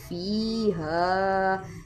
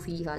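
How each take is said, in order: First: The vowel in fi is held long. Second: The vowel in fi is cut short. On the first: The speaker calls it right. "इसमें फ़ी को लंबा करेंगे।" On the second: The speaker calls it wrong. "अक्सर लोग गलती करते हैं"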